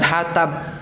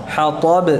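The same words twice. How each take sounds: First: The t is light, with a thin sound. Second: The t is heavy, with a thick, deep sound. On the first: The speaker calls it wrong. "bukan hatab" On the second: The speaker calls it right.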